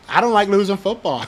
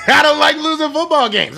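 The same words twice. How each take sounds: First: Said in the usual way. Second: High, laughing restatement; higher, laughing I don't like losing football games. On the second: Real, not acted. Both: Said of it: "I'm sorry".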